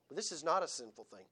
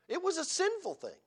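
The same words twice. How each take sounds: First: "not" pressed down, voice lower and softer; stress on not. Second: "was" lifted high and leaned on; stress on was. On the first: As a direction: lean on "not" in a low, firm voice. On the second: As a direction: hit the word "was" hard, pitched up. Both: Shown as a demonstration. Contrasting was and is not.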